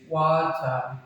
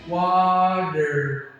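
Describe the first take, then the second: First: It is said in a British accent. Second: It is said in a non-British accent.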